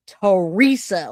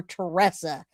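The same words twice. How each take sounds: First: Teresa said tuh-REE-suh; Teresa, middle syllable rhyming with "see"; alternative name pronunciation. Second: Teresa said tuh-RESS-uh; Teresa, middle syllable rhyming with "dress"; alternative name pronunciation. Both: Shown as a demonstration. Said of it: "I don't wanna say it wrong".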